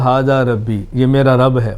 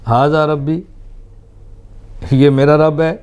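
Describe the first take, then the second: First: The voice falls at the end like a statement. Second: The voice rises at the end like a question. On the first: He declares that this is his Lord. The speaker calls it wrong. "ये यूँ नहीं था" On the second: He questions it, denying that this is his Lord. The speaker calls it right. "सवालिया अंदाज में बात फरमाई है"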